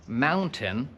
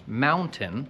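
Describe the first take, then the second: No difference in how they are said.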